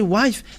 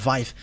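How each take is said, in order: First: The word starts with a W sound. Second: The word starts with a V sound. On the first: This is the Western way of saying it. "But if you say wife" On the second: This is the Eastern way of saying it. "they uh, pronounce it uh"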